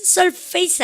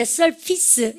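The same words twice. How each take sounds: First: Surface said as "sur-FACE", rhyming with face; mispronounced surface. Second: Surface said as "SUR-fis", not like face; correct surface. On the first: Teacher warning students off the mistake, surface mispronounced as sur-face. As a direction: say surface with a long "fayss" ending. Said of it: "surface 아니에요". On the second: Teacher explaining the word for outer layer, surface pronounced SUR-fis. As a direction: say surface slowly with a short "fis" ending. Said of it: "이 발음입니다". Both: Shown as a demonstration.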